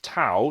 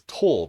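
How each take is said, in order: First: The vowel sounds like the one in cow. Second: The vowel sounds like the one in for. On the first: The speaker calls it right. "It's tau, it's the Greek letter tau" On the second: The speaker calls it wrong. "I've heard this letter pronounced as tor before, which is awful"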